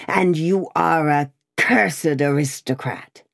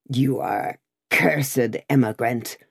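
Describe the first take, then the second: First: A hint of the farrier's fury, understated; furious cry. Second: A touch of a furious farrier, lightly voiced; rough farrier denouncing the rider, mild fury; furious cry. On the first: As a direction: spit out "cursed" with mild anger. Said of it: "making at him in a furious manner". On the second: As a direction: cry it out at him in anger. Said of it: "cried a farrier, making at him in a furious manner". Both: A narrator's reading.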